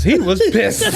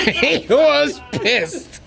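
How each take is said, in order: First: Said in the usual way. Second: He was pissed, slowly through laughter; slow laughing retelling. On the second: Real, not acted.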